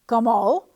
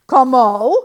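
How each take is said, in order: First: Loud, rising puzzled question; surprised cry. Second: Very loud, furious rising spit; spat in anger. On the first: Farmer surprised by the fox's promise, crying out. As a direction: ask it in startled disbelief. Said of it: "cried the farmer". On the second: Farmer spitting the word at the fox, stick raised. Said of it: "spat the farmer". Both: A narrator's reading.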